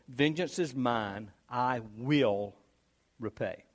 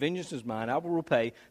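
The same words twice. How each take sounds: First: It is read slowly. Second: It is read quickly.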